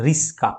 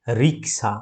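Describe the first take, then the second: First: রিস্কা with s before k, "ris-ka"; রিস্কা ending in ska, not ksa; swapped consonants. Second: Said in the usual way. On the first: Shown as a demonstration. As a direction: swap k and s to say রিস্কা. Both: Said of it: "এই দুটো শব্দের অদল বদল".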